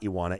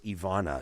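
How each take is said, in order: First: The middle consonant is a W sound. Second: The middle consonant is a V sound. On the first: The speaker calls it wrong. "it's not Iwana" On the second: The speaker calls it right. "it's Ivana"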